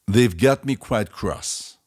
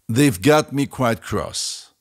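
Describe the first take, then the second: The two takes are said the same way.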